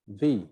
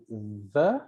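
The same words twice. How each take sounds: First: "the" said with a long ee vowel, ði; full "the" rhyming with see; the as thee. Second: "the" said with a short weak schwa, ðə; short unstressed "the" like thuh. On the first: Teacher shows students "the" said as thee before vowels. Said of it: "when to say the". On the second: Teacher shows students the weak "the" before consonants. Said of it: "or when to say the". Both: Shown as a demonstration.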